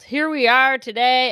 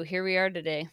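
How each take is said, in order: First: Loud, bright show opener; announcer-style greeting. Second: Said in the usual way. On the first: Shown as a demonstration. Vlogger redoing her opening line for viewers, loud. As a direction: belt out the catchphrase like a host. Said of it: "did I already say here we are today". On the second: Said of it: "well, it's true".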